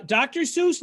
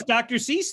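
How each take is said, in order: First: "Seuss" said with an oo vowel; Seuss rhyming with goose. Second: "Cease" said with an ee vowel; Cease rhyming with peace. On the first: Host asking guest about her surname, "Seuss" rhyming with goose. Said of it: "I mispronounced it". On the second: Host joking after being corrected, "Cease" with a long ee. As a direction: swap the oo for ee in "Cease". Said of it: "Maybe I've been pronouncing the book all wrong". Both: Real, not acted.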